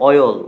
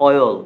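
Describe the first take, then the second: Both takes have the same delivery.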